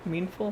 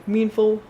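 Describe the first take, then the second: First: Meanful asked softly with a rising, unsure tune; doubtful question. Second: Said in the usual way. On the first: Real, not acted. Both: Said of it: "That's not a word".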